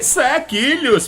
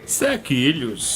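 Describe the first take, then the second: First: It is said with strong emphasis. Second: It is said slowly and flatly.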